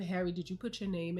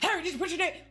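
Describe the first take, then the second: First: It is said quietly and gently. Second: It is said loudly and harshly.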